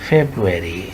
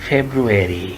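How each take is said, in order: The two takes are said the same way.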